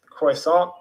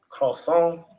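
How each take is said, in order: First: Croissant said slowly as "kroy-sont"; Croissant with an English r and an "oy" glide; attempted French croissant. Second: Croissant said as "kaw-sawn", nasal ending; Croissant with a barely-there r, ending "-sawn"; attempted French croissant. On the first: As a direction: try Croissant as "KROY-saht", rising at the end. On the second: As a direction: try Croissant French-style, no final t. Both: Shown as a demonstration. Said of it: "do a French accent".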